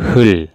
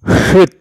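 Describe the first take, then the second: First: Only an l sound ends the word. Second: Only a t sound ends the word. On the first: The speaker calls it right. "Dibaca itu hul" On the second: The speaker calls it wrong. "bukan hulut atau hut atau hut, salah ya"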